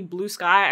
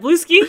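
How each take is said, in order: First: The name ends with the sound 'sky'. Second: The name ends with the sound 'skee'. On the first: "every time I see Blue Sky" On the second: "I'm about to say it like that"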